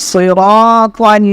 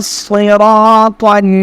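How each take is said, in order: No difference in how they are said.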